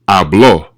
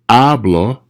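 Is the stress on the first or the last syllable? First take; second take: last; first. First: The stress is on the last syllable. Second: The stress is on the first syllable. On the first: He or she spoke. "really stress that O at the end" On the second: I speak. "present tense"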